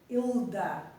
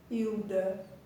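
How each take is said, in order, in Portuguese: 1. O L é pronunciado como uma consoante clara. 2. O L é pronunciado como a vogal u. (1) "Se fosse para nós expressarmos com exatidão a letra L" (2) "o nosso modo de falar"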